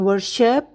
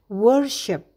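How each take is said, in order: First: The stress is not on the first syllable. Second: The stress is on the first syllable. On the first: The speaker calls it wrong. "Jadi bukan worship" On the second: The speaker calls it right. "Tekanan pada kata ini jatuh di suku kata pertama"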